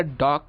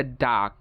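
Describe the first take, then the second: First: British ডগ with rounded O; British pronunciation. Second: American ডাক (dog) as DAHG; American pronunciation. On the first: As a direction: say ডগ as DAWG. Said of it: "ব্রিটিশরা বলে". (ডগ-এ অ, British উচ্চারণ) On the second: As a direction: open AH in ডাক. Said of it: "আমেরিকানরা বলে". (ডাক-এ আ, American উচ্চারণ) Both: Shown as a demonstration.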